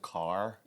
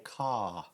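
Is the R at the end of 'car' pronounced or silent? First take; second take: pronounced; silent. First: The final R sound is pronounced. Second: The final R sound is silent. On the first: "instead of car" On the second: "English nowadays is a non-rhotic accent, so they'll say car"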